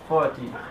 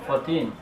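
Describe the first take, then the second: First: The stress is on the first syllable. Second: The stress is on the last syllable. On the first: "this stress can be either on the first syllable" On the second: "or the last syllable"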